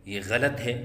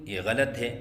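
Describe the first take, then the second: No difference in how they are said.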